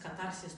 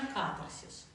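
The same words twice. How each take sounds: First: The stress falls on a later syllable. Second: The stress falls on the first syllable. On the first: The speaker calls it wrong. "По-разному проговаривают катарсис" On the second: The speaker calls it right. "правильно, катарсис. Ударение на первую А"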